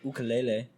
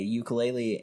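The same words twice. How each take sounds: First: It is said with the local island pronunciation. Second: It is said with the common everyday pronunciation.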